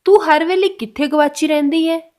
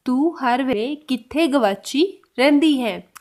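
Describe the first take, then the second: First: Louder model question. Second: Slow repeat. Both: Shown as a demonstration. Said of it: "तो उसको पंजाबी में कैसे बोलेंगे?".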